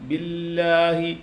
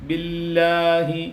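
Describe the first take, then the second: The two takes are said the same way.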